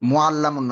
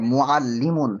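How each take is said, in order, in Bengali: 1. দ্বিত্ব L-এর পরের স্বরটি 'a'। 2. দ্বিত্ব L-এর পরের স্বরটি 'i'। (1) "মুআল্লামুন না" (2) "শব্দটা মুআল্লিমুন"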